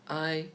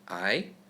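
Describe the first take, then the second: First: The pitch stays high and level. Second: The pitch rises upward.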